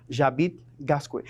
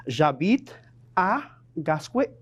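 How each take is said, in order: First: "J'habite Gascue" run together without "à", lower pitch; missing "à". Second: Said in the usual way. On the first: Shown as a demonstration. Teacher shows students what not to say, "J'habite Gascue" without "à". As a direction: say "J'habite Gascue" low, skipping the "à". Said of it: "et ne pas dire". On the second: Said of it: "Así que debe decir".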